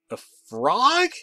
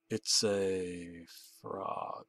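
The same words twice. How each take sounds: First: Much higher, louder whiny "A frog?"; whiny shriek. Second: Very slow, soft and low "It's a frog"; drawn out. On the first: Narrator answering the caller in disbelief, a high whiny shriek. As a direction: shriek "A frog?" like a whiny boy whose voice hasn't broken. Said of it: "I shrieked in a whiny, emasculated, prepubescent-esque voice". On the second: Caller teasing the narrator over the phone, slow and drawn out. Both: Acted.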